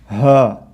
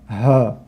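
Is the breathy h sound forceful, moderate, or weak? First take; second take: forceful; forceful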